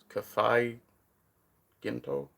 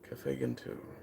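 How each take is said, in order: First: The name is said with an Asian-style accent. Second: The name is said in a plain accent.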